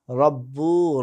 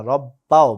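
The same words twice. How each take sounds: First: "রব্বু" ending in a long u. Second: "রব্বাও" with an a on the ba, gliding to ao; zabar on ba. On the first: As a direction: say "রব্বু" with a drawn-out oo at the end. First take, corrected right after. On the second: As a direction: punch "রব্বাও" loudly, ending bao. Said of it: "বায়ের উপরে জবর হবে". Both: Shown as a demonstration.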